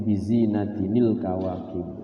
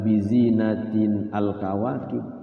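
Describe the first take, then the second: First: The words are linked through a connecting ni sound. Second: The next vowel starts separately with its own onset. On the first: The speaker calls it right. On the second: The speaker calls it wrong.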